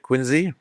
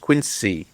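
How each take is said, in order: First: The middle consonant is a z sound. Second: The middle consonant is an s sound.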